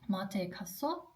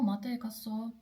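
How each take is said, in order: First: It is said as a question, rising. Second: It is said as a statement, falling.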